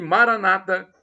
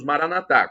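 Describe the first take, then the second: First: The stress is on the second-to-last syllable. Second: The stress is on the final syllable. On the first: This is how evangelical Christians say it. "como dizem os irmãos nossos, evangélicos ou protestantes" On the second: This is how Catholics say it. "colocamos a tônica na última sílaba"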